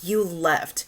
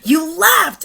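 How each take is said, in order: First: It is said plainly with little emphasis. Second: It is said forcefully with strong emphasis. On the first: "the first time is not as emphasized" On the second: "in the second one is"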